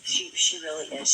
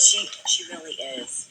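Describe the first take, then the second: First: Said in the usual way. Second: Whispered. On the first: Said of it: "repeats line plainly". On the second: Real, not acted. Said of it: "repeats line, first whispered".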